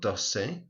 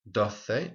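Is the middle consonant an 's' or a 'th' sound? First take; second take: s; th. First: The middle consonant is an 's' sound. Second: The middle consonant is a 'th' sound. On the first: This is the pronunciation in southern Spain and Latin America. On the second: This is the usual pronunciation in most of Spain.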